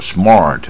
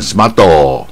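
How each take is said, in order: First: The r is strongly curled back. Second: An extra vowel is added after the t. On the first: The speaker calls it right. "你要念到那个卷舌才有那个味道" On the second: The speaker calls it wrong. "日本念smarto"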